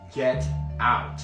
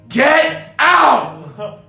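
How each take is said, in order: First: It is said in a low, quiet voice. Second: It is said in a loud, forceful voice. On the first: "I said in a low tone" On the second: "this time it was louder"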